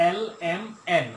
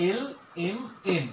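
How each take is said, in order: First: Letter names এল এম এন with open vowels; common mispronunciation. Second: এল এম এন slowly, each letter separate; corrected pronunciation. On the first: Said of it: "অনেকে এইভাবে পড়ে". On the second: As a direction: say এল, এম, এন as distinct careful English letter names. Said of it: "হবে কি?". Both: Shown as a demonstration.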